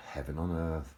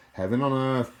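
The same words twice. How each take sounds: First: Said in the usual way. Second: Heaven on earth burst out high and loud; excited exclamation. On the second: Shown as a demonstration. Praising the friend's car, high and loud. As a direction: cry it out in rapture.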